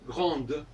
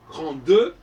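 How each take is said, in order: First: The final e is weak and barely voiced. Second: The final e is strong and fully voiced. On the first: It marks the masculine. "c'est faible" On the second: It marks the feminine. "c'est fort"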